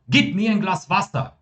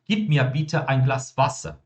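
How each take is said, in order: First: It sounds like an urgent command. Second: It sounds like a polite request.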